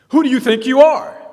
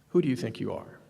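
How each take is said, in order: First: It is said in an agitated, confrontational tone. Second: It is said in a slow, calm tone.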